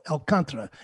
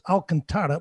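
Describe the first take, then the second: First: The stress is on the second syllable. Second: The stress is not on the second syllable. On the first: The speaker calls it right. "Second syllable" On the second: The speaker calls it wrong. "why do they call it Alcantara"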